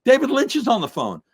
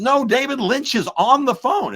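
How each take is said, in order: First: High, loud, urgent announcement; breaking news from an excited young guy; excited kid announcing. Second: High, loud, emphatic repeat of DAVID LYNCH; excited, emphatic insistence, pitched way up; insistent correction. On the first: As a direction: burst in with huge news, pitched way up. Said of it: "kid comes running and says". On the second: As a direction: hammer out "David Lynch is on the phone" in disbelief. Kid insists after being misunderstood. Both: Retold or imitated.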